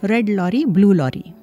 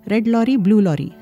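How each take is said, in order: First: The phrase is said at a slow, careful pace. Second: The phrase is said at a quick, rushed pace. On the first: "Now say these two together" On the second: "Can you say it faster?"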